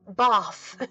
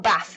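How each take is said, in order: First: It is said in a southern English accent. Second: It is said in a northern English accent.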